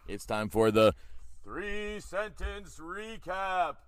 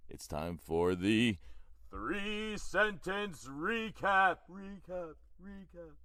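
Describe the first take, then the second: First: Booming drawn-out announcer; big slow game-show announce. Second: Slow booming announcer with echo. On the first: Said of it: "Do you want me to do that again?". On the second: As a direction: drag it out like a game show host. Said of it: "I'm gonna do it again anyway". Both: Shown as a demonstration.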